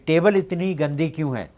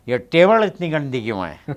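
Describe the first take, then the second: First: It is said in a plain, neutral Hindi accent. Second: It is said with a South Indian accent.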